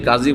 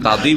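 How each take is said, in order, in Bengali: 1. মাঝের ব্যঞ্জনটি জ ধ্বনি। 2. মাঝের ব্যঞ্জনটি ড ধ্বনি। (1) "কাজীকে কাজী বলছেন" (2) "কাদি বলছেন না, অথচ হ্যাঁ দদ দিয়ে আছে"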